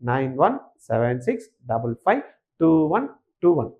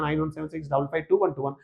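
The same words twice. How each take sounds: First: The number is said slowly. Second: The number is said quickly. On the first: "நிதானமா சொல்லட்டுமா" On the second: "ஏன் இவ்வளவு speedo போறோம்னா"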